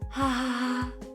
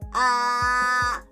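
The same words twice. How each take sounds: First: The voice is breathy and airy. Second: The voice is pinched and tight.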